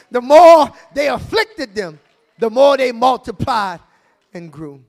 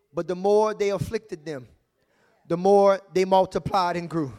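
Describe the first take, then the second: First: Louder, punching more; preached repeat. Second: Measured quote, stress on more; scripture reading. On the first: Pastor repeats the verse to the church, louder and preached. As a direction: drive the verse home. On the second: Pastor reads Exodus to congregation, steady and measured. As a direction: reads the verse out to the church. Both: Shown as a demonstration. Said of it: "The Bible says in Exodus".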